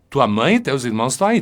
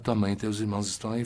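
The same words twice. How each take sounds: First: It is said in a harsher, aggressive tone. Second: It is said in a soft, gentle tone. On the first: It warns him to get ready for a confrontation. "Marcos está um pouco mais agressivo" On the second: The family is kindly asking for his attention. "Eu posso dizer assim, bem suave"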